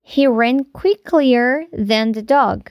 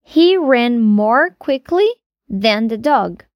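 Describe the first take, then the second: First: Slow, deliberate wrong sentence; slow wrong example. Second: Slow, deliberate correct sentence; slow correct example. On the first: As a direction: read the mistake slowly for the class. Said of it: "Não dizemos". (frase errada dita devagar) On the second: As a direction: model the right form slowly. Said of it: "a gente diz". (frase correta dita devagar) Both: Shown as a demonstration.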